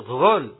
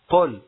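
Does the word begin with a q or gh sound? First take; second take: gh; q. First: It begins with a gh sound. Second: It begins with a q sound. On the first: The speaker calls it wrong. "بعضهم يقول غل" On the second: The speaker calls it right. "قل هو الله أحد"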